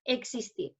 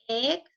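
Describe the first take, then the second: First: Said in the usual way. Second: Existir split as ex, is, tir with very long pauses; syllable by syllable. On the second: Shown as a demonstration. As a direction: stretch each syllable of Existir on its own. (Existir separado en sílabas, con pausas muy largas) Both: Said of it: "¿Cuántas sílabas tiene esta palabra?".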